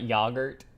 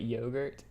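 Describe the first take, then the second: First: The word is said the British way. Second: The word is said a non-British way. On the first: The speaker calls it wrong. "Not yogurt" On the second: The speaker calls it right. "but yogurt"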